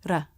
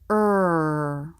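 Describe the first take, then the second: First: The R is a quick tongue tap. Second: The R is a smooth, held sound. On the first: The speaker calls it wrong. "the R is made by bouncing the front part of the tongue against the roof of the mouth" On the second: The speaker calls it right. "the American R"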